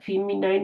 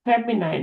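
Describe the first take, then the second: First: The first vowel is a long 'ee' sound. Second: The first vowel is a short 'e' sound. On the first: The speaker calls it wrong. "फीमिनाइन नहीं होता" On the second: The speaker calls it right. "फेमिनाइन होता है"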